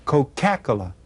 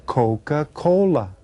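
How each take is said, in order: First: Coca-Cola run together with the stress on the second syllable, co-CA-cola; Coca-Cola misstressed as "co-KACK-ola"; wrong-syllable stress. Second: Coca-Cola slowly, as COE-ka COE-la; Coca-Cola spaced out clearly in two halves; correct stress. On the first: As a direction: shift the stress in Coca-Cola onto CA and swallow the rest. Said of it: "when I stress the wrong syllable". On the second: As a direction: stress the first syllable of each half of Coca-Cola. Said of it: "would know that I said". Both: Shown as a demonstration.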